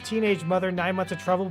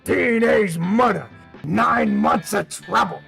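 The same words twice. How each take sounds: First: It is said in his normal voice. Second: It imitates the trailer narrator's voice.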